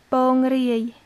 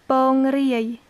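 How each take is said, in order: Both takes have the same delivery.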